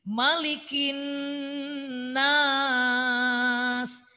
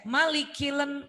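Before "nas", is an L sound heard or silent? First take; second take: silent; heard. First: No L sound; the n runs into nas. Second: An L sound is heard before nas. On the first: The speaker calls it right. "tapi malikin nas" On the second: The speaker calls it wrong. "Tidak dibaca malikilen enggak"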